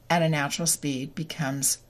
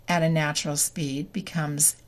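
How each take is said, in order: Both takes have the same delivery.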